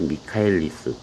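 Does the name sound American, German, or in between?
in between. It starts 'mee-ka' with a hard k sound.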